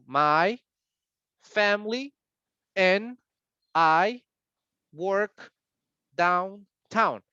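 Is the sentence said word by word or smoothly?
word by word. Each word is said separately with pauses. The speaker calls it wrong. "está dando palabra por palabra"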